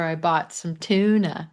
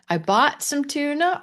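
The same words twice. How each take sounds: First: "I bought some tuna" falling on "tuna", a flat statement; teacher's falling version; falling statement tune. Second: "I bought some tuna" rising high at the end, like a question; teacher's rising version; rising question tune. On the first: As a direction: land "tuna" down firmly. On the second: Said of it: "Or bought". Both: Shown as a demonstration.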